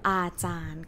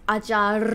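First: The word ends with an N sound. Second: The word ends with an R sound. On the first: The speaker calls it right. "Lorru as ending consonant is nonu sound. N sound" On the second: The speaker calls it wrong. "Is it ajar? No"

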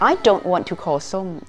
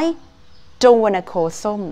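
First: "Want to" is said as two full words. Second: "Want to" is reduced to "wanna".

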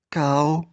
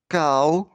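First: The word is said more quietly still. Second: The word is said a little more quietly. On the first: "тихіше" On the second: "тихіше"

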